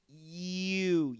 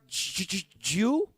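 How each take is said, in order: First: The word begins with a soft Y glide. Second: The word begins with a hard J sound. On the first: The speaker calls it right. "You want something more like this" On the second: The speaker calls it wrong. "No, okay? So you don't want to sound like a J"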